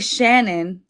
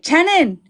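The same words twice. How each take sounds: First: The name is said in the speaker's ordinary way. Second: The name is said imitating relatives' way of saying it. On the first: This is how the name should be said. "they wouldn't say Shannon" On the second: This is how the relatives said the name. "They would say"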